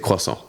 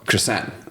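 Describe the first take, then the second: First: It is said with a French pronunciation. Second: It is said with an American pronunciation. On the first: "I grew up speaking French, so I, I say croissant" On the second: "how do you say it in America, though? Well, croissant"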